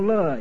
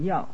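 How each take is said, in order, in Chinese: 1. 这个音节读 le。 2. 这个音节读 yao。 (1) "读成读乐也不对的" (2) "应该读要"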